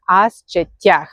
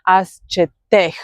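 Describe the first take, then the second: First: As četjah with a stressed -TYAH ending; correct yah ending. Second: As četeh with a stressed -TEH ending, plain e; wrong ending. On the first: Teacher giving the right form, as četjah ending in stressed yah. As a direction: glide into yah at the end of četjah. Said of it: "So we say as četjah". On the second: Teacher showing learners the mistake, as četeh ending in eh. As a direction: end četeh on eh, no y glide. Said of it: "You don't say as četeh". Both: Shown as a demonstration.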